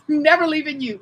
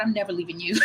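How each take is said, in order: First: Louder, laughing playful vow; higher giggly mock vow; laughing devotion. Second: Said in the usual way. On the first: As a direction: laugh it out as a joking promise.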